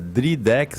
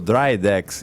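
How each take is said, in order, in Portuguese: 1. O nome é pronunciado do jeito português. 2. O nome é pronunciado do jeito inglês. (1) "em português" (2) "em inglês"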